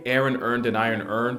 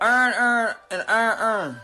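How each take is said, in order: First: It is said in a general American accent. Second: It is said in a Baltimore accent.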